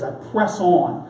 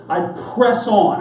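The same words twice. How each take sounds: First: Slow emphasis. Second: Said in the usual way. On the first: Shown as a demonstration. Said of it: "I want you to hold on to that phrase". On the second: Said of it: "Paul quoting".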